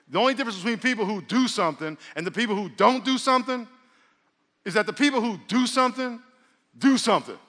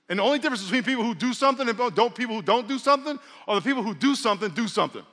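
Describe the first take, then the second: First: It is said very slowly. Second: It is said at a normal speed.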